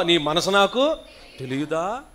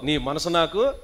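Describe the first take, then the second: First: Louder, bolder నీ మనసు నాకు with rising తెలియదా; say it loudly. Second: Said in the usual way. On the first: Shown as a demonstration. Pastor urging his daughter to say the line louder. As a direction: speak up clearly this time. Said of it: "కూతురా గట్టిగా చెప్పు". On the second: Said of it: "ఆ, చెప్పు".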